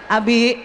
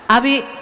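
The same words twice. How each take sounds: First: The name is called at normal pitch. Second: The name is called somewhat higher in pitch.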